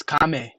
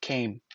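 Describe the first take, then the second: First: "kame" in two syllables, KAH-meh; spelling pronunciation. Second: Said in the usual way. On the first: Shown as a demonstration. Proving to viewers it is a different word, sounded out. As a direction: sound out "kame" with open a and voiced final e. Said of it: "That's a whole different sound". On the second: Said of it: "Let's use that word".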